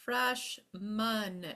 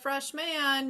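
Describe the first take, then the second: First: The second syllable has a reduced schwa vowel. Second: The second syllable has a full, clear vowel. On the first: The speaker calls it right. "you've got a schwa" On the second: The speaker calls it wrong. "You're not a"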